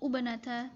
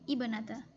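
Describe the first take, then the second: First: The word begins with a 'u' vowel. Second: The word begins with an 'i' vowel. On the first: The speaker calls it wrong. "atau ubnata" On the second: The speaker calls it right. "tapi ibnata"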